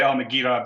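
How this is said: The G is hard, as in North Africa.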